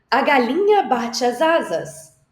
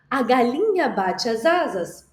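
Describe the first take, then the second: First: "galinha" louder and higher, slow and showy; dramatized line. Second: Said in the usual way. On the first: Shown as a demonstration. Teacher dramatizing the hen for children, loud and slow. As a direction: act out the hen flapping big. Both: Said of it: "ama fazer uma dramatização".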